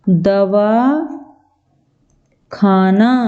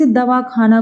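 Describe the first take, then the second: First: It is said with a pause between parts. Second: It is said joined, without a pause.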